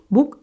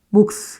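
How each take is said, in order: First: Only the first final consonant 'k' is pronounced. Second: Both final consonants are pronounced, ending in 's'. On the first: The speaker calls it right. "그냥 목 이렇게 발음하지 않습니까" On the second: The speaker calls it wrong. "이거 목스 이러지 않죠"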